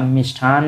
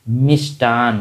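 First: मिष्ठान with an aspirated ठ, mish-thhaan; मिष्ठान said with a breathy th in the middle; wrong way. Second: मिष्टान said slowly with a plain unaspirated ट, mish-taan; मिष्टान with a crisp unaspirated t; right way, slowly. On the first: Teacher showing students the wrong way: मिष्ठान with an aspirated ठ. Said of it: "मिष्ठान नहीं होता है". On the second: Teacher slowly showing students the right way: मिष्टान with a plain ट. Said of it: "मिष्टान होता है". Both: Shown as a demonstration.

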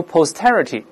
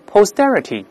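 First: Posterity with a crisp aspirated t after the s; unvoiced t. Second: Posterity with the t after s voiced like a d. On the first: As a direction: say "posterity" without voicing the t after s. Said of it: "注意不要读posterity啊". (posterity中s后的t不浊化，读成送气音) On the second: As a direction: say "posterity" with a d-like t in the stressed syllable. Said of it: "中间要浊化". (posterity中s后重读的t浊化读成d) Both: Shown as a demonstration.

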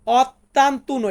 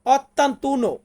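First: Ottantuno stretched out syllable by syllable; slow repeat. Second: Said in the usual way. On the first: Shown as a demonstration. Teacher repeats ottantuno slowly for students. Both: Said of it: "Italian ভাষাতে বলবো".

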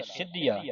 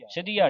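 First: ਸਿੱਧੀਆ with the middle consonant held tight; firmly doubled middle sound in ਸਿੱਧੀਆ. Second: The mistaken slack ਸਿੱਧੀਆ, "sidhiya"; loose misreading. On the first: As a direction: press "sid-dhiya" in ਸਿੱਧੀਆ. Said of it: "ਇਹਨੂੰ ਸਿੱਧੀਆ ਕੱਸ ਕੇ ਬੋਲਣਾ". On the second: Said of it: "ਪੋਲਾ ਨਹੀਂ ਪੜ੍ਹਨਾ". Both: Shown as a demonstration.

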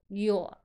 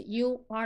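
First: "Your" run into one short syllable; contracted form. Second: Said in the usual way. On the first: Shown as a demonstration. Teacher demonstrating the contraction, reduced "Your". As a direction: shrink you are to "Your". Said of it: "的缩读". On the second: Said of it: "Your就是you are的缩".

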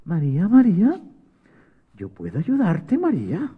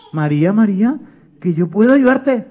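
First: Soft, small voice of an ant; tiny little voice. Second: Small voice trying to be heard; insistent little helper; little voice, insisting. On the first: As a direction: call very softly, rising at the end. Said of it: "María escuchó una vocecita que decía". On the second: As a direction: repeat the offer a bit more firmly. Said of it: "una vocecita que decía". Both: Acted.

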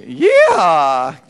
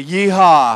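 First: Loud Texan yeehaw with a laugh; Texan twang yeehaw. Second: Loud cowboy holler, drawn out; cowboy yeehaw. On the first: Leader shows the crowd a twangy Texan yeehaw. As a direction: holler it with a Southern twang. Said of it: "with a little twang". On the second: Worship leader leads the crowd, loud cowboy yeehaw. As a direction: call it out like a Texan. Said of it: "everybody say". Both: Shown as a demonstration.

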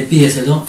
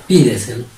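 First: Said in the usual way. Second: "Pídeselo" with weight on PÍ, the rest falling away; stress on first syllable. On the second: Shown as a demonstration. Teacher answers how it sounds, stressing PÍ in "Pídeselo". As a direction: hit PÍ at the start of "Pídeselo". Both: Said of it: "¿Cómo sería?".

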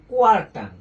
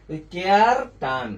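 First: কোয়ার punched louder as the right form; corrected word. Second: Said in the usual way. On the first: Shown as a demonstration. Teacher corrects the mnemonic word for students, punched louder. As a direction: hit কোয়ার hard, correcting কেয়ার. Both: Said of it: "বা কেয়ার টান না".

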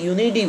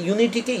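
First: ইউনিটি pronounced "iunidi", d replacing t. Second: Said in the usual way. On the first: Shown as a demonstration. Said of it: "টি এর জায়গায় অনেক স্পিকাররা ডি উচ্চারণ করে". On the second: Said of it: "ইউনিটিকে ইউনিটি বলেছি".

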